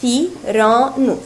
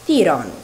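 First: ثيران slowly in three separate syllables; split into syllables. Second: Said in the usual way. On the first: Shown as a demonstration. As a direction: break ثيران into three beats with pauses. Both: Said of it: "فتتكون الكلمة من ثلاثة مقاطع".

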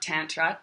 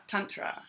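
First: Tantra with "tan" as in suntan; "tantra" opening like the English word tan; Anglicised pronunciation. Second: Tantra said softly as "TUN-tra"; "tantra" with a short "uh" in the first syllable; Sanskrit-style pronunciation. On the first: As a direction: say "tantra" with a flat front "a" in the first syllable. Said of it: "not tantra". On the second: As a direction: say "tantra" with first vowel as in "sun". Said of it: "The same as you'd say". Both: Shown as a demonstration.

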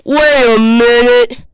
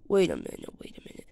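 First: Slow, loud, stretched "Wait a minute"; loud realization. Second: Hushed, whispered "Wait a minute"; whispered realization. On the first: Realizing the monster has gone, loud slow "Wait a minute". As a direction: boom "Wait a minute" slowly. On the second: Realizing the monster has gone, whispered "Wait a minute". Same words dropped to a whisper. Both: Pretend.

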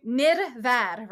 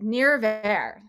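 First: Nirvad with a quick roll of the R. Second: Nirvar in an English accent, R unrolled. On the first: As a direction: flick the R in Nirvad with the tongue. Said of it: "quick roll of the R". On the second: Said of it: "with an English accent". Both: Shown as a demonstration.

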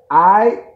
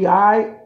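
First: Loud, demanding aight with a rise; louder insistent aight. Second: Said in the usual way. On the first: Acted. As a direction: bark the aight like a challenge. Repeated rhetorical check-in, louder.

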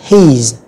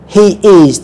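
First: "his" as one syllable, he's; single joined syllable, he's; contracted form. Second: "he is" as two full words; both words of "he is" clearly sounded; full form. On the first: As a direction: squeeze "he is" into heez. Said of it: "các bạn đọc là". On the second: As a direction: say "he is" uncontracted. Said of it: "chúng ta đọc đầy đủ". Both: Shown as a demonstration.

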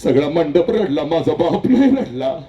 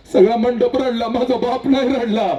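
First: Said in the usual way. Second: Higher, pressed line; emphatic repeat. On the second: Acted. Daughter insists her father never cried, said higher. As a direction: lift the voice on नाही रडला.

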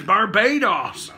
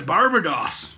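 First: "Barbados" with a long BAY in the middle; corrected pronunciation. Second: "Barbados" with "buh" in the middle; old pronunciation. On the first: Correcting himself to the audience, "Barbados" as bar-BAY-doss. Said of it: "I've been saying it wrong". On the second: Arguing over the name, "Barbados" said BAR-buh-doss. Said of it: "it's not". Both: Shown as a demonstration.

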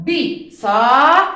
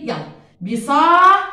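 First: بساط drawn out very slowly and loudly, the ط at the end clearly separate; slowly stretched. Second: بساط loud, with the ط sharp at the end; model word called out. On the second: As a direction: announce بساط loudly to the class. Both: Shown as a demonstration. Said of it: "وين لفظت القط يا أول؟".

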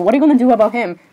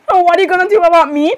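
First: Said in the usual way. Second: Higher-pitched, indignant comeback; indignant echo. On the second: Acted. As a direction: throw the question back, pitched up. Malfoy echoes the question back.

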